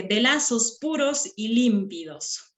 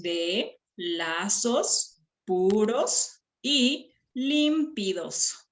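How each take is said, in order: First: Said in the usual way. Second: "de lazos puros y límpidos" very slow, syllable by syllable; slow segmented verse with pauses between syllables; counting syllables. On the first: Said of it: "Ahora, dice". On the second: Shown as a demonstration. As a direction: separate and stretch each syllable for counting.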